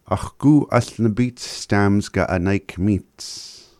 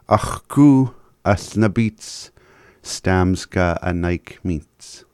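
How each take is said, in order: First: It is said at normal speed. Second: It is said slowly.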